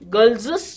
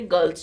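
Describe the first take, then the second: First: The word ends with an extra 'ez' syllable. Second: The word ends with a single s sound. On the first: The speaker calls it wrong. "Girlses, you don't say" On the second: The speaker calls it right. "you say girls' school"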